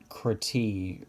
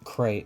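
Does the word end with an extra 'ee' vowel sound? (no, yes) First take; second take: yes; no. First: The final e is sounded as 'ee'. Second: The final e is silent. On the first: "the e is like a, a hard e, like the double e kind of sound" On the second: "They don't say crate"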